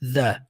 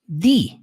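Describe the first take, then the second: First: The vowel is a short 'uh' sound. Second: The vowel is a long 'ee' sound. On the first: This is the usual form of the word. "como som do a" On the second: This form comes before a word starting with a vowel. "Só que aqui você vai pronunciar the"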